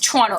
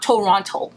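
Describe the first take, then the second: First: It is said the way locals pronounce it. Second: It is said the way outsiders pronounce it. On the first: The speaker calls it right. "you know it's Toronto" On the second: The speaker calls it wrong. "It's not Toronto"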